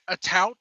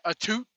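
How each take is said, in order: First: The vowel sounds like the one in out. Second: The vowel sounds like the one in boot. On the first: The speaker calls it right. "it's a tout. Get it right" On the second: The speaker calls it wrong. "for all you British people out there who keep pronouncing it a toot"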